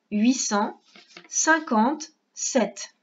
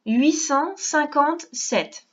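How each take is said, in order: First: Huit cent, pause, then cinquante-sept very slowly; split dictation. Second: Huit cent cinquante-sept spoken slowly, each number spaced; slow dictation. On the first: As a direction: cut the number in two chunks for the child. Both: Shown as a demonstration. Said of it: "On écrit".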